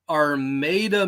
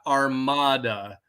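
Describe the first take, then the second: First: It is pronounced in a local American English way. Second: It is pronounced in a Spanish-sounding way. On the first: This is how locals say the town's name. The speaker calls it right. "We're not Spanish around here" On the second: This is how outsiders would say the town's name. The speaker calls it wrong. "not Armada. We're not Spanish around here"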